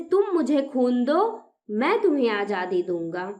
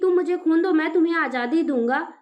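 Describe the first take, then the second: First: There is a clear pause after दो. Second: It runs on with no clear pause.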